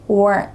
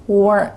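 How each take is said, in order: The two takes are said the same way.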